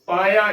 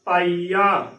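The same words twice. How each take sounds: First: ਪਾਇਆ said with a short glide, paa-ya; wrong pronunciation. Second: ਪਾਈਆ with a long ee, paa-ee-aa; correct pronunciation. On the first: Teacher showing students the faulty reading, ਪਾਇਆ as paa-ya. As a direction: say ਪਾਇਆ as two syllables, no long ee. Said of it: "ਇਸ ਦਾ ਗਲਤ ਉਚਾਰਨ ਹੈ". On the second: Teacher showing the correct reading, ਪਾਈਆ as paa-ee-aa. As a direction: hold the ee clearly in ਪਾਈਆ. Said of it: "ਇਸ ਦਾ ਸਹੀ ਉਚਾਰਨ ਹੈ". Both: Shown as a demonstration.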